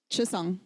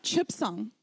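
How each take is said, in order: First: Said in the usual way. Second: "Chipsang" with a p before the s; silent letter sounded. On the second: Shown as a demonstration. Lecturer shows class the wrong way, "Chipsang" with a sounded p. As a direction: close the first syllable of "Chipsang" on an audible p. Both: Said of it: "Not Chipsang".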